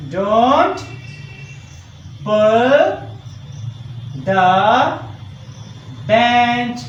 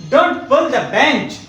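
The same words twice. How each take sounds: First: One drawn-out word at a time; very slow, separated words for copying down; slow dictation. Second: Said in the usual way. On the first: Shown as a demonstration. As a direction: dictate with a long pause after every word. Dictating sentence while writing it.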